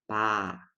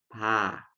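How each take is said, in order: The two takes are said the same way.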